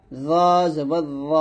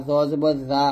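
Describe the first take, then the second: First: র said as a heavy zo, rounded o; thick zo. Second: জা with an open aa, light and plain; thin zaa. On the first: Teacher leads repeat-after-me, thick zo. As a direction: hold র long, thick and buzzing. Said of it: "মোটা করে". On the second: Teacher mimics a common mistake, thin zaa. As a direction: say জা as Bengali aa. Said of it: "এই প্রত্যেকটা উচ্চারণ কিন্তু ভুল". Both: Shown as a demonstration.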